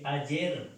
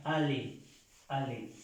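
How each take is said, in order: First: "ayer" with a y sound for the double L; Spanish spelling reading, "a-YER"; read as spelled. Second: "ale" with a plain L, final r silent; French aller said "a-LÉ", no y sound; French pronunciation. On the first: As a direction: say "ayer" as a Spanish reader would, with a y. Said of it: "se escribe ayer con doble L". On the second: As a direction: model "ale" as a-LÉ, twice. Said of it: "y se pronuncia ale". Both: Shown as a demonstration.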